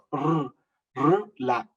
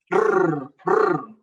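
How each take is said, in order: First: R said more softly, a light single tap; softer r. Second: R spoken louder and higher, a tapped r; demonstrating r. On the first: Preacher showing a softer r to the congregation. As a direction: ease off on r, gentle tap. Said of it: "más suave". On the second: Preacher teaching the congregation the letter r, tapped and firm. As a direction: tap out r as a teacher would. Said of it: "suena la R". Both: Shown as a demonstration.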